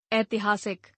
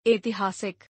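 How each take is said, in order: First: Said in the usual way. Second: ऐतिहासिक starting on narrow e, "etihaasik"; mispronounced. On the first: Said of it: "शुद्ध". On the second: Shown as a demonstration. Teacher showing an e error, mispronounced with narrow e. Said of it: "अशुद्ध".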